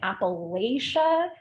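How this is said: It uses the New York suburban pronunciation. The speaker is an outsider to the region. The speaker calls it wrong. "I grew up in the New York City suburbs calling it Appalachia"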